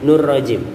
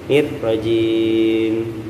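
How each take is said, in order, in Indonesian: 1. R-nya tebal, kedengarannya seperti nur. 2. R-nya tipis, dengan bibir direnggangkan. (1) "nirnya itu nggak ditipisin" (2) "dipecah dikit mulut kita"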